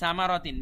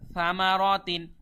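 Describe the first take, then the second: First: The first sound is a plain hissing consonant. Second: The first sound is soft, tongue against teeth. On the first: The speaker calls it wrong. "অনেকে কিন্তু বলে সামারাতিন, বললেই ভুল হয়ে যাবে" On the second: The speaker calls it right. "বলতে হবে সামারাতিন"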